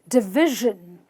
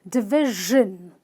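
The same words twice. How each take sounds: Both takes have the same delivery.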